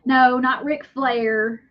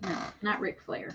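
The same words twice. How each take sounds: First: Slow drawn out. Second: Much softer muttered repeat; quiet. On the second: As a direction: drop it to a murmur. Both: Shown as a demonstration.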